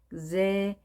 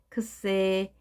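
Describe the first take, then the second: First: It begins with a softer, voiced gz sound. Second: It begins with a voiceless ks sound. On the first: "살짝 그 약하게 해서 그제" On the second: "X는 크스입니다. 크스 다음에 에가 왔기 때문에 크세"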